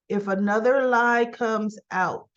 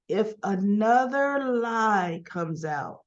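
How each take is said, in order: First: Said in the usual way. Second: Drawn-out warning, word by word; slow retold warning. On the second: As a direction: stretch out the warning for weight. Retold warning, repeated slowly for weight.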